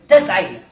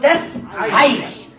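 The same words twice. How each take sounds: First: Said in the usual way. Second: تس عين slow, with a gap after تس; teacher assembling تس عين slowly in two parts; built piece by piece. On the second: Shown as a demonstration. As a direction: hold تس, pause, then add عين. Teacher builds word piece by piece.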